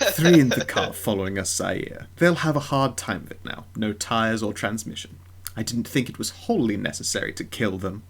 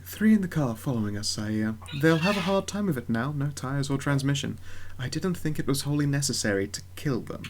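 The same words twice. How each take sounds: First: Timothy Lee is voiced in an arrogant manner. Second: Timothy Lee is voiced in a mild manner.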